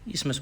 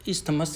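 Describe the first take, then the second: First: The 'th' sound in the middle is silent. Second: The 'th' sound in the middle is pronounced. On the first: The speaker calls it right. "टी एच यहाँ silent रहता है, इस्मस बोलते हैं" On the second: The speaker calls it wrong. "इस्थमस नहीं बोलते हैं"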